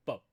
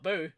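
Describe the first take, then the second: First: "Bo" with an o, not oo; corrected vowel. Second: "boo" with a long oo vowel; wrong vowel. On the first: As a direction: say "Bo" rhyming with go. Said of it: "not boo. Bo". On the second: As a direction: say "boo" rhyming with too. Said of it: "No, no, not boo". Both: Shown as a demonstration.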